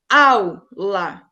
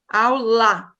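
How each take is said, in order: First: The stress is on the first syllable. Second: The stress is on the last syllable. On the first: The speaker calls it right. "aula é a sílaba mais forte" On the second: The speaker calls it wrong. "A última sílaba, lá, seria mais forte"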